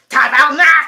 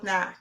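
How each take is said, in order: First: It is said angrily, like screaming. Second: It is said in a calm, plain way.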